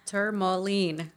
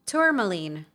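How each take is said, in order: First: "Tourmaline" slowly as ter-mo-LEEN; careful pronunciation. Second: "Tourmaline" opening with a clear TOOR; pronounced like tour. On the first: Co-host trying the word "Tourmaline" for her friend, slowly as ter-mo-leen. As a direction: sound out "Tourmaline" with TER first. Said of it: "I think that's how you pronounce it". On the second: Co-host matching "Tourmaline" to its spelling, said as TOOR-muh-leen. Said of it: "It's spelled like the tour". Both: Shown as a demonstration.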